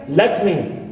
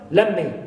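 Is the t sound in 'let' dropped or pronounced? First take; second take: pronounced; dropped. First: The t at the end of 'let' is pronounced. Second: The t at the end of 'let' is dropped.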